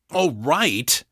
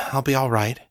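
First: A sharp, rising disbelieving echo; astonished and outraged. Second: Said in the usual way. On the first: A narrator's reading. Daniel echoes his sister in outrage, astonished. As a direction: throw her words back, stunned. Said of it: "astonished and outraged". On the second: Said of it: "Don't worry".

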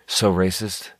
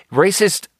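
First: Said in the usual way. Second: Incredulous echo. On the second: Real, not acted. Repeating her own word, a high incredulous rise.

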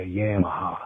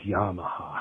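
First: Yamaha starting like the word "yam"; sweet-potato pronunciation. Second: Yamaha as "YAH-muh-hah"; common pronunciation. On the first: Retold or imitated. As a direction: imitate Yamaha as "YAM-uh-ha", flat "a" as in cat. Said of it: "sound like a sweet potato". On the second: Shown as a demonstration. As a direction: open "ah" in the first syllable of Yamaha. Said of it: "Everybody I know says".

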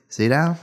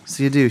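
First: Seydow said "SAY-dow"; mispronounced surname. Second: Seydoux said "say-DOO"; corrected surname. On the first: Guest stumbling over an actress's surname, Seydow rhyming with "now". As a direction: guess at Seydow, ending like "now". Guessing at a surname, then corrected. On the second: Guest echoing the correction, Seydoux said "say-DOO". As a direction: end Seydoux on an "oo" sound. Repeats the name after correction. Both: Real, not acted.

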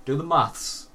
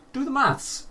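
First: Said in the usual way. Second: Emphatic high repeat. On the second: Real, not acted. Host urging listener to add the costs, emphatic high repeat. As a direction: do the maths, jumping much higher on the repeat.

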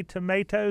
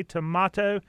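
First: "tomato" said tuh-MAY-toh; stressed "may" in "tomato"; long-A tomato. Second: "tomato" said tuh-MAH-toh; broad-A tomato. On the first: Host contrasts two pronunciations, "tomato" as tuh-MAY-toh. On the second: Host contrasts two pronunciations, "tomato" as tuh-MAH-toh. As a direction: open "ah" in the middle of "tomato". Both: Shown as a demonstration. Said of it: "how to properly pronounce".

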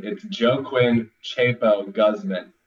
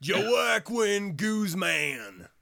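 First: Joaquin as joe-KWIN, Guzman as GUZZ-man, slow and blunt; Americanized pronunciation. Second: Joaquin as zho-KWIN, Guzman as KOOZ-man, very slow and shouted; Americanized pronunciation. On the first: Cohost mocks the name in blunt American sounds. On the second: Host repeats the name Americanized, very slow. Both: Shown as a demonstration. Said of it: "say it like an American".

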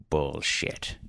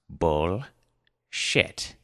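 First: Low, softer mumble under the breath; mumbled. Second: Each syllable set apart by a pause; grave precision. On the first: Grandfather cursing under his breath at the table, mumbled. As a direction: mumble the curse, turned away. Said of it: "Arthur looked away and mumbled". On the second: Grandfather to his giggling granddaughters, with grave precision. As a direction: pronounce it gravely, piece by piece. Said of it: "grave precision pronounced". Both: A narrator's reading.

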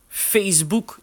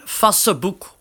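First: Said in the usual way. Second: Facebook read as written, like "Fasseboek"; literal pronunciation. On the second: Shown as a demonstration. Showing VoiceOver pronunciation settings, Facebook pronounced as spelt. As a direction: say Facebook with a short Dutch "a" and sounded middle "e". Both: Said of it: "Je hebt nog de uitspraak".

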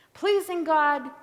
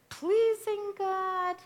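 First: Pleasing God called out loud and high; loud, raised pleasing God; emphatic. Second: Pleasing God stretched out slow and high; slow, lifted pleasing God; drawn-out, high. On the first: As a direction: proclaim the first road with force. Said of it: "preacher contrasts the two paths". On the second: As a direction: hold the words up, slowly. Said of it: "preacher repeats the choice". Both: Shown as a demonstration.

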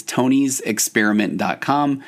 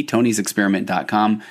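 First: "tonys experiment dot com" said slowly, each word spaced out; slow, deliberate web address; slow, careful URL. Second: Said in the usual way. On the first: Shown as a demonstration. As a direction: read the link out carefully so people can type it. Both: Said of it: "T O N Y S E X P E R I M E N T".

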